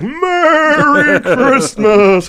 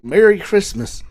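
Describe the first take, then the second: First: It sounds like a full, confident Santa voice. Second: It sounds hesitant, a voice not yet found.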